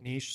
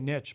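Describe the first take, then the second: First: The word uses the widespread pronunciation. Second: The word uses the speaker's older pronunciation. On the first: This is how most English speakers say it. "the rest of the English speaking world now pronounces it niche" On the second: This is how the speaker used to say it. "I used to say niche"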